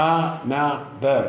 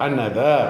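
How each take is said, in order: First: Another very slowly as a, no, ther; split into syllables. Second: Said in the usual way. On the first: Shown as a demonstration. Teacher showing three syllables to pupils, slowly split. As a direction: break another into three beats with pauses. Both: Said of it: "അങ്ങനെ മൂന്ന് syllable ഉണ്ട്".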